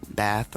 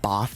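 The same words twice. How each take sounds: First: Bath is said the northern-style way, not the local way. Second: Bath is said the local way, not northern-style. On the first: This way could offend local people. The speaker calls it wrong. "I can offend people if I say Bath. Although nor- people with the northern accent say Bath" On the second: This is the way local people prefer. The speaker calls it right. "as I've learned to say"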